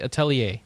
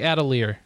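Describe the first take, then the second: First: The word ends without a sounded R. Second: The word ends with a sounded R. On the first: The speaker calls it right. "That's how we're supposed to pronounce it" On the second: The speaker calls it wrong. "I used to say Atelier, but that's not right"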